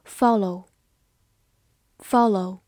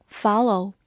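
First: Said in the usual way. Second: "follow" with an American open "ah" first vowel; American pronunciation. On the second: Shown as a demonstration. Teacher showing learners the US variant, American pronunciation of "follow". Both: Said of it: "美式发音".

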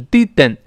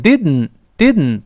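First: Didn't with a full vowel between d and n; wrong oral-plosive didn't. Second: Didn't with d released straight into n through the nose; drawn-out didn't, no vowel between d and n; nasal-plosive didn't. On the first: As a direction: loudly say didn't as di-den, tongue releasing the d. (错读didn't，d后带元音爆开) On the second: (didn't读成鼻腔爆破，舌尖不分开) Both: Shown as a demonstration. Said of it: "不是didn't".

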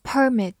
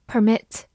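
First: "Permit" as a noun, PER-mit; stress on first syllable. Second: "Permit" as a verb, per-MIT; stress on second syllable. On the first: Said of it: "或者读作permit". ("Permit"读作名词，重音在前) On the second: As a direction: stress the end of "Permit", weak first syllable. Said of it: "动词，许可". ("Permit"读作动词，重音在后) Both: Shown as a demonstration.

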